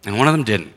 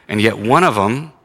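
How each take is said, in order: First: "one of them didn't" settling down with a fall; falling contrast. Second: "one of them" lifted on a rise, left hanging; rising contrast. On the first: Preacher contrasting two towns, falling on the second. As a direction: close the contrast by dropping on "of". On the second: Preacher contrasting two towns, rising on the first. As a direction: set up the first half with a rising "of". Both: Shown as a demonstration.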